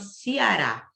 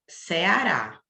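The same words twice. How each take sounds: First: The first vowel is pronounced like an i. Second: The first vowel is pronounced as a plain e. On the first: This is how locals of the region say it. "o cearense ele chama Ceará, como se tivesse um i" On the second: This is how people from other regions say it. "Se eu tiver em outra cidade, as pessoas vão chamar aqui Ceará"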